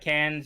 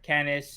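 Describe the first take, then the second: First: The word ends with a sounded s. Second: The word has a second syllable ending in s. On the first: "It's not cans" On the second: "or canis"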